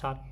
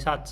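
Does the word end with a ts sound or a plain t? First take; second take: plain t; ts sound. First: The word ends with a plain t sound. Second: The word ends with a ts sound. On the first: The speaker calls it wrong. "not Sat" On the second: The speaker calls it right. "sorry, Satz"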